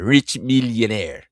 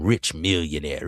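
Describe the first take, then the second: First: "rich millionaire" said slower and louder, each word hit; emphatic repeat. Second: Said in the usual way. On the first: Shown as a demonstration. Host repeats "rich millionaire" slow and louder for emphasis. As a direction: hammer "rich millionaire" home slowly.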